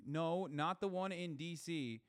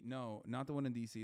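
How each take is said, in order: First: "No, not the one in D C" drawn out and higher; slow emphatic correction. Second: Said in the usual way. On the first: Real, not acted. Streamer correcting chat about the rally, slow emphatic "No, not the one in D C". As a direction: stretch each word of "No, not the one in D C" slowly.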